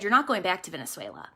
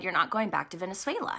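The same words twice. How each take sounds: First: Low, soft and quick, God repeating himself; hushed, firm divine answer; quiet voice of the Lord. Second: Low, soft and quick, God speaking; a hushed divine voice, unhurried authority; quiet voice of the Lord. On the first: The Lord repeating to her softly she won't return. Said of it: "And he said". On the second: The Lord telling her quietly she won't return. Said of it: "the Lord said". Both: Retold or imitated.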